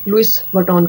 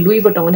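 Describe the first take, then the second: First: The s at the end of Louis is pronounced. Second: The s at the end of Louis is silent. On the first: The speaker calls it wrong. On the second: The speaker calls it right.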